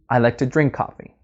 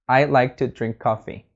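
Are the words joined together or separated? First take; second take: joined; separated. First: The words run together into one smooth flow. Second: Each word is said separately, sounding robotic. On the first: The speaker calls it right. "put the sounds together" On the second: The speaker calls it wrong. "it might sound kind of robotic maybe"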